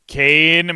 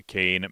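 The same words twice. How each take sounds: First: Loud, high shout of the name Kane; loud call. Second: Said in the usual way. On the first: Real, not acted. Calling out chatter's name.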